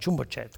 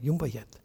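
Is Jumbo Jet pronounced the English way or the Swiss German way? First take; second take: English; Swiss German. First: It is pronounced with an English pronunciation. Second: It is pronounced with a Swiss German pronunciation. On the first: "we called them Jumbo Jet" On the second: "Now in Switzerland, you take that word, it's Jumbo Jet. You go"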